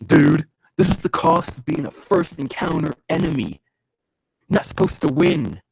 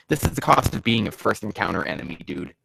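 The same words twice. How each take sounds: First: Higher, worked-up declaration; pitched-up, forceful delivery; emphatic taunt. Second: Said in the usual way. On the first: Acted. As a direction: proclaim it at the beaten foe. Repeats the line worked up.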